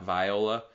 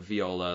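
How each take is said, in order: First: It is said like the actress's first name. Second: It is said the usual instrument way. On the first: This is the less common pronunciation heard in the film. "like not viola" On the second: This is the common everyday pronunciation. "everybody I knew calls it viola"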